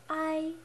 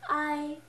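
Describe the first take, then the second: No difference in how they are said.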